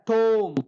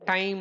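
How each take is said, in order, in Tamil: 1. உயிரெழுத்து 'oh' போல ஒலிக்கிறது. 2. உயிரெழுத்து 'eye' போல ஒலிக்கிறது. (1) "ஷேக்ஸ்பியருடைய பீரியடில் டோம் அப்படின்னு ப்ரொனவுன்ஸ் பண்ணியிருக்காங்க" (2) "இப்போ ... டைம் அப்படின்னு நம்ம ப்ரொனவுன்ஸ் பண்ணியிருக்கோம்"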